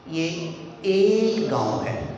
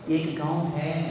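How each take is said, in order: First: The stress falls on the word एक. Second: The stress falls on the word है. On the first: It is one village, not two. "कि वो बंदा समझ रहा है कि ये दो गांव हैं" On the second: It still is a village, not only in the past. "यानी वो समझ रहा है कि कभी था"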